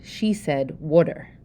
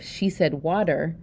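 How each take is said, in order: First: "water" with a short oo, like "wooder"; Pennsylvania Dutch water. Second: Said in the usual way. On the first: Shown as a demonstration. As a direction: say "water" with the vowel of wood. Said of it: "my Pennsylvania Dutch pronunciation of water". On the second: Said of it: "instead of".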